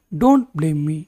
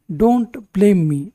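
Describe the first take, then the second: First: Said in the usual way. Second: Slow. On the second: Shown as a demonstration. Teacher models sentence for learners.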